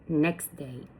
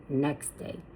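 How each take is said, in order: First: The t sound in next is dropped. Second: The same.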